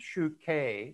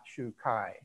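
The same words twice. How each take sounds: First: The word does not end in a 'kai' sound. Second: The word ends in a 'kai' sound. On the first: The speaker calls it right. "and Shu-Kai" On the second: The speaker calls it wrong. "not Shu-Kai"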